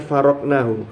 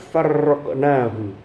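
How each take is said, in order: First: The r sound is single and short. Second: The r sound is doubled and held longer. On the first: "Kalau tadi kan bitakfif"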